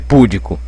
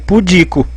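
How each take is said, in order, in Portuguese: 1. A tônica está na primeira sílaba. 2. A tônica está na segunda sílaba. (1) "não pode ser púdico" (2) "tem que ser pudico"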